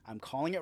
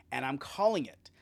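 First: Sudden voiceless whisper; hushed aside, like a secret. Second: Said in the usual way. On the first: Real, not acted. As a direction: drop to a conspiratorial whisper. A prediction, then repeated.

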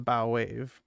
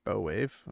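First: "bow wave" with bow rhyming with now; bow as in bow-tie. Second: "bow wave" with bow rhyming with go, a bit softer; bow as in ribbon. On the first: Unsure narrator trying the ship's-bow "bow" in "bow wave". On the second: Second guess, narrator tries the ribbon "bow" in "bow wave". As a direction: tries "bow" like a hair ribbon, lower and quieter. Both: Shown as a demonstration. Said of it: "I'm not sure if it's bow or bow".

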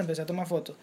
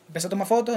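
First: "empecé a tomar fotos" said softly and trailing off; fading repetition. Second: Said in the usual way. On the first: Retold or imitated. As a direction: let the repeated "fotos" die away. Relato repetitivo que se apaga. ("empecé a tomar fotos" dicho más bajo, apagándose)

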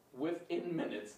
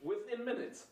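First: Said in the usual way. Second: "Within" pitched high and punched; insistent, higher on "Within"; emphatic. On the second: Real, not acted. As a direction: hit "Within minutes" hard and high. Insisting villains lose fast.

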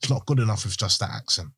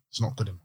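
First: Said in the usual way. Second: "not" stressed in a much softer restatement; quiet stress on not. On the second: Real, not acted. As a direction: say "not" with weight, dropping the volume.

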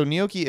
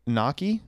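First: Gnocchi said "nee-OH-kee"; corrected pronunciation. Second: Gnocchi said "NOCK-ee", as a question; hesitant mispronunciation. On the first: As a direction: say gnocchi with a clear "nyo" at the start. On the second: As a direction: try gnocchi as "nah-kee", no y sound. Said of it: "G N O C C I". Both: Real, not acted.

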